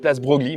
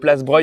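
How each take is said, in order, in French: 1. Le nom se prononce comme 'Broglie', en deux syllabes. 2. Le nom se prononce comme 'Breuil', en une syllabe. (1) "tout le temps j'ai dit place Broglie, mais c'était faux" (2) "je viens d'apprendre que ça se dit place Breuil"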